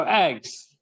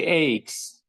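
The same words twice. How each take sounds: First: "eggs" with a short clear eh sound; "eggs" said with a crisp short E; right pronunciation. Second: "eggs" said as "aygs", with a long A sound; wrong pronunciation. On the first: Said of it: "So eggs, eggs, eh sound". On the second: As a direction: stretch "eggs" into "aygs", Prescott style. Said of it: "the wrong way of saying it". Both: Shown as a demonstration.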